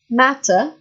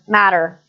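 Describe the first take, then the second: First: The word is said in a British accent. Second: The word is said in an American accent. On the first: "British English" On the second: "American English is different, again"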